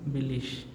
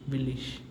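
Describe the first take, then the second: No difference in how they are said.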